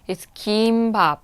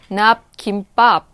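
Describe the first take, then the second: First: The last syllable starts with a soft, gentle sound. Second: The last syllable starts with a strong, forceful sound. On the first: The speaker calls it right. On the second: The speaker calls it wrong.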